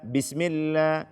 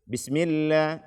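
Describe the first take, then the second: The two takes are said the same way.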